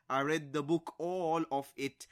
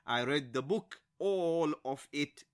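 First: "all of it" slowed and weighted; emphasis on all. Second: "all of it" drawn out after a rising "book"; slow down on "all of it" for emphasis. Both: Shown as a demonstration. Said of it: "It's used for emphasis at times".

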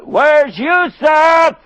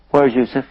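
First: Slow, high, drawn-out shout; drawn-out anguished yell; desperate shout. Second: Said in the usual way. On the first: Acted. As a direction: cry out for the lost son. Father shouts his demand.

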